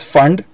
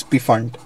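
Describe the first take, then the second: First: Fund starting straight on the f; silent P. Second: Pfund with the P sounded before the f; P pronounced. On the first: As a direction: say Fund with no P sound before it. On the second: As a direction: say Pfund as "p-fund", P audible. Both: Shown as a demonstration. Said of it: "don't pronounce the P".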